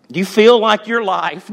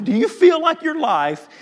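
First: Said in the usual way. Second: High shouted call to the room; shouted repeat. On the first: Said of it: "repeats it louder". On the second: Shown as a demonstration. Preacher to church, the same question shouted. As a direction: throw the question out loud to the church. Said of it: "repeated as a shout".

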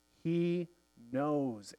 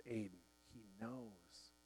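First: Said in the usual way. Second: Fading to a hush, much softer. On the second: A narrator's reading. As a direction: let "He knows" sink to a near breath, very soft and falling. Quiet inner voice answering Aidan.

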